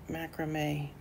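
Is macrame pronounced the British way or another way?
another way. It is said in a non-British pronunciation.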